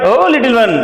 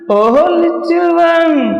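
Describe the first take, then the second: First: It is said in a plain, flat tone. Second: It is said in a sad, pitiful tone.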